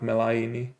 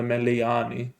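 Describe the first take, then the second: First: The name is pronounced Meh-LAY-nee. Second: The name is pronounced Meh-lee-AH-nee. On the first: The speaker calls it wrong. "not Melaini" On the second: The speaker calls it right. "So it's Bas El Meliani"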